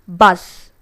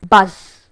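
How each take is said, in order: The two takes are said the same way.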